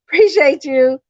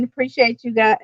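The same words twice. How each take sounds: First: Higher and louder, through a laugh; giggling appreciation. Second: Said in the usual way. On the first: Real, not acted. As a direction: laugh out the thanks. Laughing repeat of thanks.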